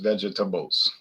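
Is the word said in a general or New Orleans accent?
New Orleans. It is said in a New Orleans accent.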